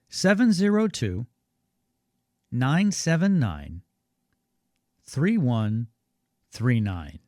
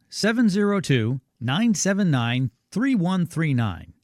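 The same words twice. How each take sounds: First: The number is read more slowly. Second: The number is read at normal speed.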